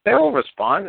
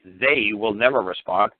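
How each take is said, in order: First: High, mock-confident sing-song; mock-cheerful promise, pitched high; sarcastic. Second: Slow, flat, with never leaned on; deadpan, slow, stressing never; dry correction. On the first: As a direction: pretend they'll surely answer, tongue in cheek. Mocking the caller's hope. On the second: Shown as a demonstration. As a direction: drop the joke and state it plainly, slowly. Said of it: "well, obviously".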